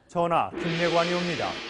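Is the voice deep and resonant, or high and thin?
deep. The voice is deep and resonant. "거꾸로 해보시라고요"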